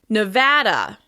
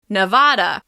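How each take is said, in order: First: The middle syllable has the local vowel. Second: The middle syllable has the non-local vowel. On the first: This is how people who live there say it. The speaker calls it right. "But locals pronounce it Nevada" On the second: This is how people from elsewhere say it. The speaker calls it wrong. "You may hear Americans from other parts of the country say Nevada"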